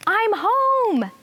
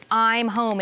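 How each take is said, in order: First: Loud, very high elated call; excited shout. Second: Said in the usual way. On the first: Acted. Teacher re-enacts the narrator shouting on the last page, excited shout. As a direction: call it out high and long, thrilled to arrive.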